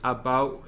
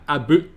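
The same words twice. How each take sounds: First: The vowel is a milder, less rounded sound. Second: The vowel is a strong Glaswegian 'oo' sound. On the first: "I think it's more like about" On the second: "the way, same way we do"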